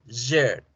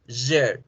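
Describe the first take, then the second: The two takes are said the same way.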